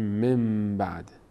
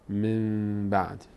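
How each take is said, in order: First: The nasal before the b sounds like n. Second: The nasal before the b sounds like m. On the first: The speaker calls it wrong. "نمیگیم" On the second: The speaker calls it right. "میگیم من بعد من بعد کلا میم تلفظ میکنیم"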